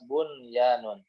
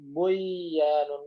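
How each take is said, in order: First: The n is pronounced clearly before the y. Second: The n merges into the following y sound. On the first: The speaker calls it right. "dibaca jelas" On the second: The speaker calls it wrong.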